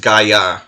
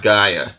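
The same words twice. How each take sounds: First: The stress is on the second syllable. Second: The stress is on the first syllable. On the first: The speaker calls it right. "I think it's Gaia, because of the accent mark over the second A" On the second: The speaker calls it wrong. "not Gaia; putting the emphasis on the wrong syllable"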